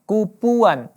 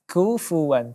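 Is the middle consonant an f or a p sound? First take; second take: p; f. First: The middle consonant is a p sound. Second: The middle consonant is an airy f sound. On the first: The speaker calls it wrong. "tidak dibaca kupuan, ya, ini lebih salah lagi" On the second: The speaker calls it right. "tapi kufuwan"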